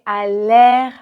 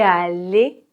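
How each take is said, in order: First: The word ends with an open vowel, like air. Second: The word ends with a closed vowel, like et. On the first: The speaker calls it wrong. "si vous dites comme ça, on comprend tout à fait, mais ce n'est pas du tout naturel" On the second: The speaker calls it right. "pour l'infinitif, c'est toujours et"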